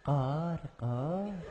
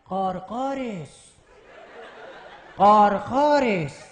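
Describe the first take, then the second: First: The crow call is in a Tehran accent. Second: The crow call is in an Isfahan accent. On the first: "مثلا کلاغ تیرونی" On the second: "مثلا کلاغ اصفهانی بگه که"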